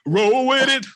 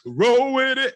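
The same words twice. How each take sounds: First: Excited. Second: Loud and high, playful; excited. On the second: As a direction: shout it back gleefully. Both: Pretend. Echoing cohost playfully.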